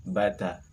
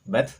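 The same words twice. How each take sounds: First: Bata with both syllables open, ta fully voiced; fathah reading demo. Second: Bat with the ta closed off, no vowel after it; sukun reading demo. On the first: Teacher models bata for students, clear and deliberate. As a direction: say bata slowly, each letter carrying its fathah. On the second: Teacher models the sukun ending for students, crisp. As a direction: clip bat short, stopping dead on the t. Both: Shown as a demonstration. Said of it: "Kita ulangi pelafalannya satu persatu".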